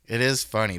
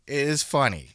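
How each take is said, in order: First: Is pressed hard and falling; stress on is. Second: Funny carries the weight, falling; stress on funny. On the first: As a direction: insist on is, conceding it. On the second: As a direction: lean on funny, then drop. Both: Shown as a demonstration. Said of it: "It's funny because it's funny".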